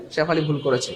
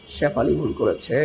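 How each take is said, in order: First: Said in the usual way. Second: Slow, lower-pitched playful verdict; drawn-out teasing. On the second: Pretend. Teacher answering who made the mistake, drawn-out teasing. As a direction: stretch Shefali and করেছে out long and low. Mock verdict after "কে করেছে?.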